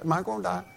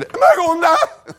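First: Offhand, softer, almost shrugging; casual question. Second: Much higher, louder, slow frantic wail through a laugh; hammed-up terror, voice shooting up; panicked shriek. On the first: Retold or imitated. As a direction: ask it like it's nothing. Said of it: "asked me real kinda casual". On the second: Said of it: "If I would have said".

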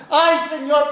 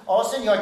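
First: Higher, anguished ay, Señor; pleading cry. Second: Breeze through Oh, Señor; casual prayer. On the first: A repentant sinner crying to God, pleading. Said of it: "delante del Señor llorando". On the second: A complacent believer praying lazily, offhand. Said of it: "Lo que hacemos es". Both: Retold or imitated.

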